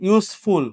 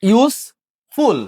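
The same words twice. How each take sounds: First: Said in the usual way. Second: "ইউজফুল" broken slowly into ইউজ, pause, ফুল; split into syllables. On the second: Shown as a demonstration. Teacher counting syllables for the class, "ইউজফুল" split slowly in two. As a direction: draw out "ইউজফুল" as two separate, higher beats. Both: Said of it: "two syllable, তাহলে কি".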